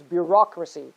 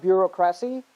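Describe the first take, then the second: First: "bureaucracy" as byoo-ROK-ruh-see; correct stress. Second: "bureaucracy" as byoo-ro-KRASS-ee; wrong stress. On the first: Teacher correcting students, "bureaucracy" stressed on ROK. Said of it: "it is". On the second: Teacher showing the mistake, "bureaucracy" stressed on KRASS. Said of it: "It is not". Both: Shown as a demonstration.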